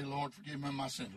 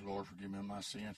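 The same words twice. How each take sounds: First: Said in the usual way. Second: Much lower and flat, echoing the prayer; a dry, low, emotionless echo. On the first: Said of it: "I'd say". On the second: Retold or imitated. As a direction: repeat it back low and dry, no feeling. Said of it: "dry, dry, low voice".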